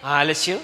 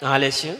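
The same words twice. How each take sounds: The two takes are said the same way.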